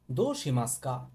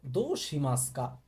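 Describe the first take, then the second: No difference in how they are said.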